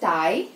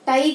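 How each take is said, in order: First: The vowel glides from one sound to another. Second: The vowel stays steady without gliding. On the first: The speaker calls it right. "It's టై" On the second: The speaker calls it wrong. "కాదు"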